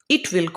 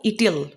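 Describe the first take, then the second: First: It is said as two full words. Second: It is said as one contracted word.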